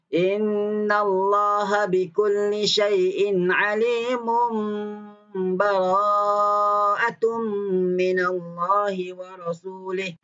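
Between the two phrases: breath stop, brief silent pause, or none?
none. The phrases run straight together without pause. "Wasal ni sambung terus"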